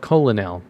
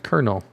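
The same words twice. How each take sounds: First: It is said with three syllables, as spelled. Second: It is said with two syllables, like kernel. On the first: The speaker calls it wrong. "It's spelled colonel" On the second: The speaker calls it right. "but it's pronounced Colonel"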